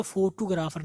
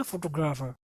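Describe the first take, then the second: First: फोटोग्राफर as "fo-too-ga-raa-far"; local mispronunciation. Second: फोटोग्राफर as "fo-to-gra-fer"; English pronunciation. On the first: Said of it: "नहीं पढ़ेंगे". (फोटोग्राफर को "फोटूगराफर") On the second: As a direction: tight "gr" and short final vowels in फोटोग्राफर. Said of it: "but English में". (फोटोग्राफर, अंग्रेज़ी उच्चारण में) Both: Shown as a demonstration.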